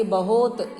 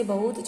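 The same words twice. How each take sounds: First: बहुत said wrongly as "ba-hot", drawn-out o; mispronounced word. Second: Said in the usual way. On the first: Shown as a demonstration. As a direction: stretch बहुत into a long "bahoot". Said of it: "ये बहुत wrong है". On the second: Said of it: "यहाँ right".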